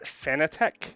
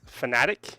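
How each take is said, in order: First: The last syllable sounds like 'tech'. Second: The last syllable sounds like 'tick'. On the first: The speaker calls it wrong. "not Fanatec" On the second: The speaker calls it right. "supposed to be pronounced Fanatic"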